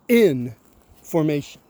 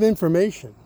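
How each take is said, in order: First: It is split with a break after 'in'. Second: It is said as one smooth word.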